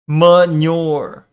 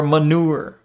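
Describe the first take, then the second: First: Manure said as muh-NYOR with a y glide; manure, falling, muh-NYOR; dictionary pronunciation. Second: Manure said as muh-NOOR, no y glide; alternative pronunciation. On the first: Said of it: "The word manure is pronounced". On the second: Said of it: "Or manure". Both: Shown as a demonstration.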